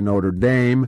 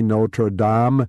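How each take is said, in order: First: The name is pronounced the American way. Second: The name is pronounced the French way. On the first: "being an American, I always just say Notre Dame" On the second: "I suppose I'm supposed to say that differently"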